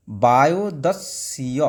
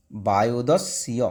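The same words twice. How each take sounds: First: বায়ুদস্য said slowly with the স্য joined; slow joined reading. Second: বায়ুদস্য repeated slowly, ending low; slow joined reading, falling. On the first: Teacher demonstrating the hyphen-joined বায়ুদস্য. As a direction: glide slowly through বায়ুদস্য. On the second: Teacher repeating the joined বায়ুদস্য for the class. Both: Shown as a demonstration. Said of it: "hyphen মানে ওটাকে নিয়ে যুক্ত নিয়ে উচ্চারণ হবে".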